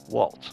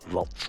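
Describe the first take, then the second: First: The word begins with a W sound. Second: The word begins with a V sound. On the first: The speaker calls it wrong. "Now we would say" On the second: The speaker calls it right. "So there's that V sound, you know, rather than the W"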